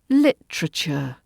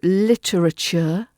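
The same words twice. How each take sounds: First: A middle vowel is dropped, making a T R cluster. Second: Every syllable is pronounced in full.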